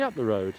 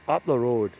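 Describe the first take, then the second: First: Said in the usual way. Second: Put-on Scottish accent on "road"; Scottish accent impression. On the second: Scottish ganger sending men off at tea break, Scottish accent. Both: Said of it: "that's my Scottish accent impression".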